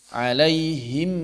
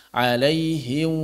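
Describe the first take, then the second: The two takes are said the same way.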